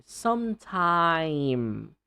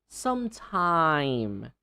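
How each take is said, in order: No difference in how they are said.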